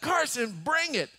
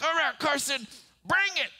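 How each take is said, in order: First: High, strained come-at-me call; bracing dare again. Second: High, tense challenge to his son; bracing dare. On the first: Father bracing for son's swing. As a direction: dare him, half laughing. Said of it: "And so I just like". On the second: Father daring his six-year-old son to strike. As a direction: brace yourself and dare him. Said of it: "I'm like". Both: Retold or imitated.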